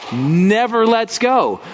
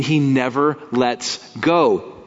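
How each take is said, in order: First: Never lets go, slow and rising higher; emphatic repeat. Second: Said in the usual way. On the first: Acted. Preacher to congregation, slow emphatic repeat. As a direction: lean hard into never lets go.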